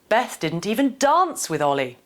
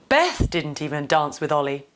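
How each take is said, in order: First: The emphasis falls on the word dance. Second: The emphasis falls on the word Beth. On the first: The focus is on the kind of interaction. "the last one nudges us to consider different ways to interact with somebody" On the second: The focus is on who did not dance. "The first two point towards the two actors in this scenario"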